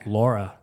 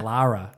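First: The name is said like Laura. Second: The name is said like Lara. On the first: The speaker calls it wrong. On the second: The speaker calls it right. "There you go"

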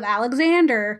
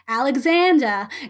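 First: It is said with an American accent. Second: It is said with a British accent. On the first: The accent the role calls for. "instead of" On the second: The actor's own accent slipped through. "or like"

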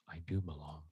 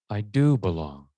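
First: No word is lifted; it is quiet. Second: The word do is lifted and stressed.

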